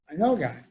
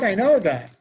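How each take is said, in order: First: Said in the usual way. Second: "know" in "I know a guy" pushed up and louder; excited announcement with "know" stressed; emphatic first take. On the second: Retold or imitated. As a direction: lean hard on "know", bright and eager.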